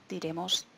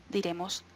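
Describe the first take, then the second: No difference in how they are said.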